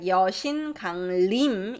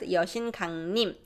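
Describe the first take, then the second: First: The last syllable begins with an L sound. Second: The last syllable begins with an N sound. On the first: The speaker calls it wrong. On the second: The speaker calls it right.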